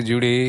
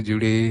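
Both takes have the same delivery.

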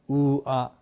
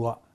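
First: Two vowels are said slowly and separately. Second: The vowels are run together quickly. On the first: "ゆっくりと" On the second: "早く言うと"

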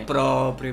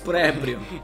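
First: The first vowel sounds like 'o'. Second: The first vowel sounds like 'e'. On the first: The speaker calls it right. "É próprio, minha gente" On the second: The speaker calls it wrong. "eu já ouvi pessoas dizer pré-prio"

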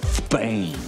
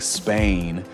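First: The word begins with a lisped TH sound. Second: The word begins with a hissing S sound. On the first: "pronounced the letter S with like a TH" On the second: "instead of saying Spain"

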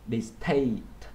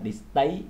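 First: The t is released with a strong puff of air. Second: The t is released with very little air. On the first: The speaker calls it right. "âm T bật hơi trong tiếng Anh nó gần giống với âm thờ trong tiếng Việt" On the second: The speaker calls it wrong. "bạn không đọc là distaste, tại vì nếu như vậy thì nó gần giống với âm tờ trong tiếng Việt"

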